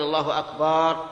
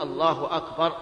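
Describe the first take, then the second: First: The vowel after the b is drawn out. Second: No vowel is drawn out beyond normal length. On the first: The speaker calls it wrong. "يمد الباء فيقول الله أكبر" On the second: The speaker calls it right. "لا بد أن يقول الله أكبر"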